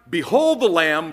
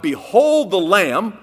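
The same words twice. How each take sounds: First: Said in the usual way. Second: "Behold the Lamb" slow and louder, stress on Behold; slow emphatic quote. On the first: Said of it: "That's the first thing out of his mouth". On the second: Shown as a demonstration. Preacher repeating John's words, slow and louder. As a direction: lean hard on "Behold", drawn out. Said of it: "about as humble as you can get".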